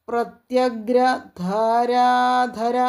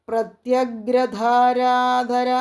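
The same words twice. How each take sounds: No difference in how they are said.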